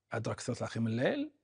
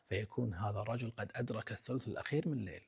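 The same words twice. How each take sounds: First: أدرك الثلث الأخير من الليل rattled off fast with a rise; quick echo. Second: Said in the usual way. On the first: Real, not acted. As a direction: rush the repeat for emphasis. Phrase repeated faster.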